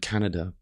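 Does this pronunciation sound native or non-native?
native. It is said in a native way. The speaker calls it right. "rather than"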